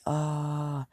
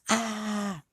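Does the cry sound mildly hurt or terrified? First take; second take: mildly hurt; terrified. First: It sounds like a mild cry of pain. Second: It sounds like a terrified scream.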